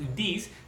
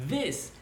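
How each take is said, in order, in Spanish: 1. Empieza con un sonido d. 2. Empieza con un sonido th. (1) "no es this" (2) "sino this"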